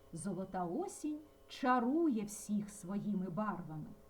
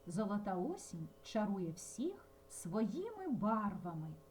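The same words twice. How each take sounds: First: The stress falls on the verb чарує. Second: The stress falls on the words своїми барвами. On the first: It answers what golden autumn does. "за допомогою інтонації ми змінимо цю відповідь" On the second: It answers with what golden autumn charms. "одну відповідь ми вимовили зовсім по-різному"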